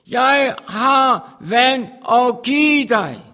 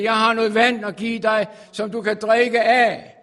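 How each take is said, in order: First: Slow, loud, drawn-out proclamation; proclaimed. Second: Preached quote. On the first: Preacher voicing Jesus's offer, slow and booming. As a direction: stretch each word like a call from on high. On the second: Quoting Jesus's offer, loud. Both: Acted.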